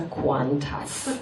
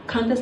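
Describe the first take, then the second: First: "Qantas" said as "kwon-tas", with a clear w; "Qantas" pronounced KWON-tas. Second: "Qantas" said as "kan-tas", no w sound; "Qantas" pronounced KAN-tas; Qantas without U. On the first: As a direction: say "Qantas" starting kw, drawn out. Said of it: "Put you if you want to pronounce". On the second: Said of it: "So you mispronouncing". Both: Shown as a demonstration.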